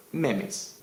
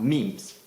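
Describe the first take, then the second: First: "memes" said in two syllables, MEM-iz; alternative pronunciation. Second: Said in the usual way. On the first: Shown as a demonstration. Teacher offers viewers the other pronunciation, "memes" as MEM-iz. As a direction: say "memes" as MEM-iz, short first vowel. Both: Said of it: "the official pronunciation is meme".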